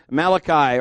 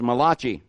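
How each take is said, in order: First: Said in the usual way. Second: Malachi said as muh-LAH-chee; backwoods mispronunciation. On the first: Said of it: "or if you were, you know, back in the hills, Malachi". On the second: Shown as a demonstration. Preacher joking about hill folk, Malachi mispronounced muh-LAH-chee. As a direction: say Malachi with a "chee" ending, stress on the middle. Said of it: "back in the hills".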